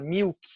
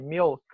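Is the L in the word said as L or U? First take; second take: U; L. First: The L is said as a U sound. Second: The L is said as a clear L. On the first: The speaker calls it wrong. "muitos brasileiros vão falar milk" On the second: The speaker calls it right. "tem que passar pelo L"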